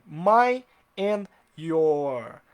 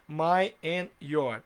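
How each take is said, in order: First: Very slow, louder "my and your"; stretched quiz phrase; slow, loud example. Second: Slow "My and your" posed as a question to judge; stretched test sentence; slow quiz phrase. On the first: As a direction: write it out with your voice, very slowly. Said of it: "vou colocar aqui". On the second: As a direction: hold each word, "My and your". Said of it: "Tá certo ou tá errado?". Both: Shown as a demonstration.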